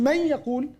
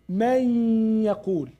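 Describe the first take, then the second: First: It is said quickly, without lengthening. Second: It is said with sounds drawn out long.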